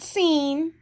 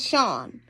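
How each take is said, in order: First: The name is said like the word 'seen'. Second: The name is said as 'Sean'. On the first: The speaker calls it wrong. "It's not seen. Don't say it's not seen" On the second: The speaker calls it right. "It's Sean"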